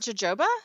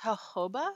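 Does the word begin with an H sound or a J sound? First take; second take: J sound; H sound. First: The word begins with a J sound. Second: The word begins with an H sound. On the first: The speaker calls it wrong. "I thought it was a J" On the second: The speaker calls it right. "That's pronounced jojoba?"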